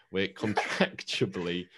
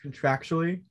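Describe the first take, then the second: First: "contractually" tripped over, stretched slow; garbled word. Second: "contractually" said cleanly with a rise; clear pronunciation. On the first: Real, not acted. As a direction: stumble slowly through "contractually". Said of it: "that wasn't a word". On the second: Shown as a demonstration. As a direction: say "contractually" carefully, all syllables. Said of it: "can you say this word?".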